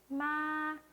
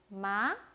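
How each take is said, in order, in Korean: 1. 높고 평평하게, 약간 길게 읽어요. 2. 가볍게 올라가는 톤으로 읽어요. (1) "이거보다 높고 길게 읽어주세요" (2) "가볍게 올라갔죠?"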